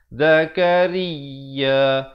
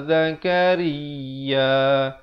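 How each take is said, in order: The two takes are said the same way.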